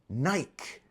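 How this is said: The word is said as one syllable. "it's pronounced as Nike, as in bike"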